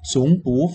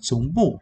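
First: The syllable bu has a rising tone. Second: The syllable bu has a falling tone. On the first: "Chứ đôi khi, ví dụ này" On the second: "mình thích đọc là chống bụ, để mình nhấn mạnh"

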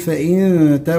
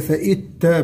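First: The n is hidden as a nasal hum. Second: The n merges fully into the t. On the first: The speaker calls it right. "نقول فإن تا" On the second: The speaker calls it wrong. "وليس فإت تا بالإدغام"

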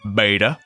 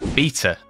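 First: The word has an American pronunciation. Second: The word has a non-American pronunciation.

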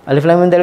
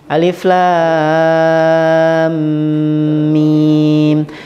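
First: The words are rushed out very quickly. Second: The words are recited slowly and calmly. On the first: The letters are not given their due. The speaker calls it wrong. "Jangan sampai cepat kayak gitu" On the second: The letters are given their due. The speaker calls it right. "Jadi baca santai ya kayak gitu"

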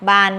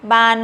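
First: The syllable is said on a low tone. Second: The syllable is said on a high tone. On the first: "ไม้เอก" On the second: "ไม้ตรี"

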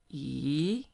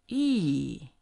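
First: The pitch rises from mid to high. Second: The pitch drops sharply from high to low. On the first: "the second tone is going up" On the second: "the fourth one, falling"

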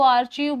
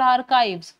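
First: The middle sound is 'ch', ending like 'eev'. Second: The middle sound is 'k', ending like 'ive'. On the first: The speaker calls it wrong. "कई लोग इसको आर्चीव बोलते हैं" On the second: The speaker calls it right. "This is called आर्काइव्स"

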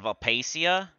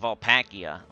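First: The middle consonant is a soft 's' sound. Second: The middle consonant is a hard 'k' sound.

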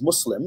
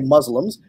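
First: It uses the Muslim community's own pronunciation. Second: It uses the usual American pronunciation. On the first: This is how Muslims themselves say it. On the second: This is how most people in America say it. "in America, we generally say Muslims"

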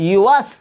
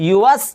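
No difference in how they are said.

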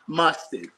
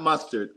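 First: The second syllable sounds like 'tid'. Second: The second syllable sounds like 'tard'. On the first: The speaker calls it right. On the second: The speaker calls it wrong. "Not mustard"

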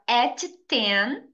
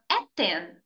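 First: The T sound is pronounced twice. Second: The T sound is pronounced only once. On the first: The speaker calls it wrong. "Em vez de você falar at 10" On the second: The speaker calls it right. "Pronuncie apenas uma vez a letra T e é sempre da segunda palavra"

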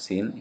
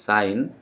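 First: The word has a short vowel, like 'sin'. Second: The word has a long vowel, like 'sign'. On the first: The speaker calls it wrong. "It is not sine" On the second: The speaker calls it right. "it is sine"

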